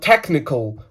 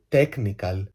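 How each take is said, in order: First: TECHNICAL in a fluent English accent; authentic English accent. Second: Put-on TECHNICAL in a slow, heavy Greek accent; mock Greek accent. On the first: Shown as a demonstration. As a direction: say "technical" like a native English speaker. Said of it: "το λένε τέλος... Ας πούμε, ο άλλος λέει το". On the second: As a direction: drag out "technical" with Greek vowels. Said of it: "το λέτε με αυτή τη σπαστική προφορά".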